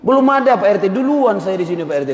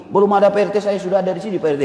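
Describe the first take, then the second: First: Angry retort. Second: A mildly heated retort, a bit higher; the Medan temper starts to show. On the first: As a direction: snap back at the RT with Medan fire. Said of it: "Hebat kali Pak R T ini ngomong kayak gitu". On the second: To the RT who doubts he's a resident, mildly heated. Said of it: "naik darah dia". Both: Retold or imitated.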